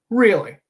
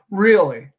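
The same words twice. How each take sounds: First: Higher, louder mock disbelief; sarcastic disbelief; sarcastic really. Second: Louder mock disbelief; sarcastic disbelief; sarcastic really. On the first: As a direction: scoff at it. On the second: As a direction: scoff at the suggestion. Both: Mock dialogue, sarcastic reply.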